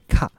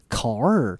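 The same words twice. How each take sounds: First: The final r is dropped without curling. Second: The final r is pronounced with curled tongue. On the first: The speaker calls it wrong. "而不是您所发的car" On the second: The speaker calls it right. "而是car"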